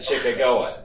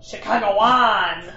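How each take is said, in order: First: Chicagoan as "shi-kuh-GO-in"; plain Chicagoan; correct pronunciation. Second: Chicagoan said slowly as "shi-KAH-ng-oh-an"; slow, mangled Chicagoan; misreading. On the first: Shown as a demonstration. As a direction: say Chicagoan with a hard g and stress on GO. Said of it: "if I said Chicagoan". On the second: Retold or imitated. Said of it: "I always, like".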